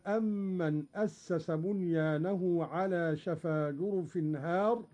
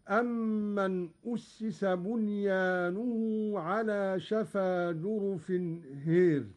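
First: أسس said as asasa, هار with open a; reading with أسس active. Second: أسس said as ussisa, هار leaned toward hir; Qalun reading with imala. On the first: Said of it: "قرأ قالون بضم الهمز". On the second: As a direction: bend the alif of هار toward e. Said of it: "مع إمالة الألف". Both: Shown as a demonstration.

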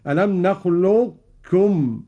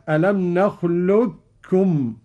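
First: Slow, نخلقكم keeping a trace of the heavy qaf, no echo; partial merging. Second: Slow, نخلقكم with the qaf merged into a doubled kaf; full merging. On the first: Teacher showing partial merging without echo. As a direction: let the qaf color the kaf in نخلقكم. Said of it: "بدون قلقلة هكذا". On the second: Teacher showing full merging of the qaf. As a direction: say نخلقكم as nakhlukkum. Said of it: "الإدغام الكامل كاف مشددة". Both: Shown as a demonstration.

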